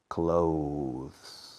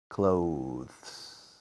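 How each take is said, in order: The two takes are said the same way.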